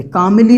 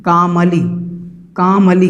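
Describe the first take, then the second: First: कामली with a short i sound, kamɪli; wrong vowel. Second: कामली said kaməli with a neutral middle vowel; correct vowel. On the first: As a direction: show the mistaken कामली. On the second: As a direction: say कामली the right way. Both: Shown as a demonstration. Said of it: "कामली नहीं है".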